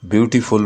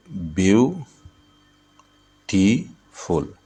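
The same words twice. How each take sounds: First: Said in the usual way. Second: "beautiful" very slowly as view, टी, फुल; three beats in "beautiful" with long pauses between; syllable by syllable. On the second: Shown as a demonstration. ("Beautiful" को ब्यू... टी... फुल, रुक-रुक कर) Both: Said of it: "beautiful में तीन syllable है".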